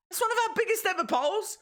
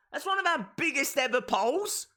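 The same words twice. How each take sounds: First: Much higher and faster, thrilled; excited repeat. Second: Said in the usual way. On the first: Shown as a demonstration. Streamer marvelling at the poll count to chat, thrilled and fast. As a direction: say it again, overjoyed.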